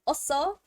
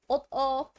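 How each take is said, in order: First: An s sound comes before the final vowel. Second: A t sound comes before the final vowel. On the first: The speaker calls it right. "the S transfers over" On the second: The speaker calls it wrong. "I'm saying that wrong"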